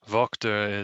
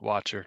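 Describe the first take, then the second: First: The name is said with a German pronunciation. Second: The name is said with an English pronunciation. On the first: "the German pronunciation" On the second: "a lot of people just pronounce it Watcher because it's easier for them"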